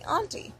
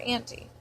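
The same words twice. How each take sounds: First: "auntie" said "AHN-tee"; auntie as ahntie. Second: "auntie" said "AN-tee"; auntie as antie. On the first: Comparing names for an aunt, "auntie" as "AHN-tee". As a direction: say "auntie" with a broad ah. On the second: Offering the other option, "auntie" as "AN-tee". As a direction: say "auntie" with the vowel of cat. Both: Shown as a demonstration. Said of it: "sounds better when you say".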